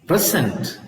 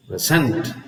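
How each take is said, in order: First: "present" with a strong PRE, falling away; stress on first syllable. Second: "present" with a weak pre, landing on SENT; stress on second syllable. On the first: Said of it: "The stress is on the". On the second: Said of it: "the stress is on the second syllable". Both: Shown as a demonstration.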